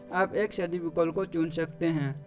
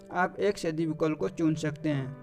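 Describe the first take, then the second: The two takes are said the same way.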